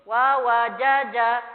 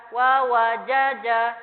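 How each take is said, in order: No difference in how they are said.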